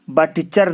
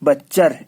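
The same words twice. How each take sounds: First: बटचर as "but-cher"; wrong form बटचर with a separate T; sounded T. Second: बच्चर as "butch-er", louder; right form बच्चर, no separate T; silent T. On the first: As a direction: stop on T before CH in बटचर. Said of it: "बटचर नहीं". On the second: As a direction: go straight to CH in बच्चर. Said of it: "जो टी है वो silent है". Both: Shown as a demonstration.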